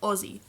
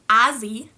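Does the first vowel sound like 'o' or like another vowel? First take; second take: o; another vowel. First: The first vowel sounds like an o. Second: The first vowel is not an o sound. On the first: The speaker calls it right. "you pronounce it as Aussie" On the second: The speaker calls it wrong. "You don't pronounce it as Azzy"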